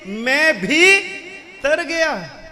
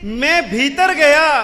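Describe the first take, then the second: First: Bhi and tar are said apart with a break. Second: Bhitar is said as one joined word.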